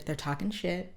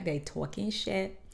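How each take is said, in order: First: Said in the usual way. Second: Slangy aside. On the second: Real, not acted.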